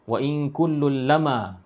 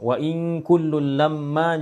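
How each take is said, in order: First: The m in lamma is short and single. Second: The m in lamma is held and doubled. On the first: This follows another reading of the verse. "lamma tu dibaca dengan takhfif" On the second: This follows the usual reading of the verse. "qiraat yang kita baca"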